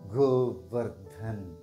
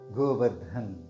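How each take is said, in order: First: It is said slowly. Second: It is said at normal speed.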